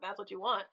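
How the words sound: The tone is condescending and mocking. The choice is looked down on. The speaker calls it wrong. "not in a condescending, like, oh"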